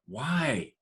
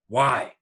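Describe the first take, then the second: First: The word sounds frustrated. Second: The word sounds angry. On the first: "With frustration" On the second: "With anger"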